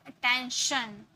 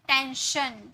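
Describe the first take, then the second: The two takes are said the same way.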